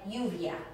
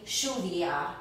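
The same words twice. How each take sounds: First: The double L sounds like an English Y. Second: The double L sounds like an English SH. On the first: "pronounced like a Y" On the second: "In Argentina, ... like an S H"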